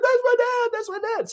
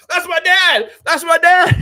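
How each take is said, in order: First: Very high, tearful imitation of a proud son; mock crying. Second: High, loud imitation of a cheering son; excited son. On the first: Streamer imitating the governor's son crying at the speech, mock-tearful squeal. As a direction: mimic a son overcome, voice pitched way up. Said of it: "And he's all crying". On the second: Streamer imitating the governor's son jumping up, excited proud shout. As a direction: shout it high, mimicking a kid bursting with pride. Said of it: "his son started jumping up".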